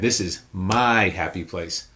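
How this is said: The stress falls on the word my. It claims ownership of the place. "word number three"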